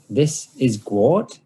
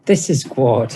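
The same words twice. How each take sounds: First: Slow, sneering mock introduction; mocking drawn-out "This is Gwart". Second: Mock introduction with a sneer; mocking "This is Gwart". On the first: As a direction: say it slowly with a sneer. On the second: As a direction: drip scorn on "This". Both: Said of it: "he says mockingly".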